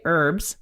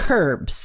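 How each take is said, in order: First: The word starts with a vowel, no H. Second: The word starts with a clear H sound. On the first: "She doesn't say herbs" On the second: "She says herbs"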